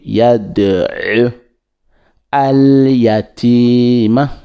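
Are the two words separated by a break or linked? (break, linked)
break. There is a break between the two words. "Sinon, on peut dire"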